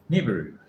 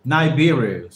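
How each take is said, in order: First: "Nibiru" said NIV-uh-roo, short first vowel; tentative pronunciation. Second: "Nibiru" said nigh-BEER-oo, louder and falling; corrected pronunciation. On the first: Learner checking a word's pronunciation, "Nibiru" opening on a short "ni". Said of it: "check if that's a correct way of pronounce". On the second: Learner correcting the word for listeners, "Nibiru" as nigh-BEER-oo. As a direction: open "Nibiru" with "nigh", firmly. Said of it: "sorry, Nibiru". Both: Shown as a demonstration.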